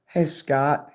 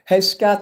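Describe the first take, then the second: First: Said in the usual way. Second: Higher, louder call to Scott. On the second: Real, not acted. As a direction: call his name across the room.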